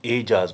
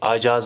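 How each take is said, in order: First: The word begins with an 'e' vowel. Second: The word begins with an 'a' vowel. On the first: "हम ए sound के साथ ये लफ्ज़ बोलते हैं" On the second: "अगर हम ज़बर से काम लेंगे तो ये आजाज बनेगा, जो गलत है"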